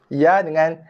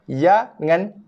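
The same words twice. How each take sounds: The two takes are said the same way.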